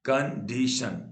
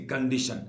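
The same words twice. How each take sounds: First: condition slowly broken into three beats; syllable by syllable. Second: Said in the usual way. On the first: Shown as a demonstration. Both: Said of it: "तीन बार टूटा".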